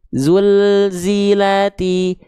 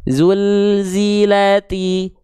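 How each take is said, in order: The two takes are said the same way.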